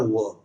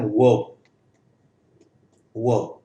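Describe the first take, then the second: First: वर्ब with the r pronounced; r-coloured vowel in वर्ब; American R. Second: वर्ब with a silent r, open schwa vowel; British-style r-less वर्ब; R dropped. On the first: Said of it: "American में आर बोला जाता है". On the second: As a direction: leave out the r in वर्ब. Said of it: "इस रे को drop कर सकते हैं". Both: Shown as a demonstration.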